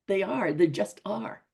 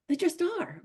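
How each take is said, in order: First: Said in the usual way. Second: "just" said much higher and stretched; stress on just. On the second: Shown as a demonstration. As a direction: lift "just" well above the rest.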